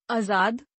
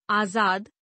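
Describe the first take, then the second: First: आजाद starting on short uh, "azaad"; mispronounced. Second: Said in the usual way. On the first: Shown as a demonstration. Teacher showing a vowel error, mispronounced with short first a. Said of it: "अशुद्ध". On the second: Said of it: "शुद्ध".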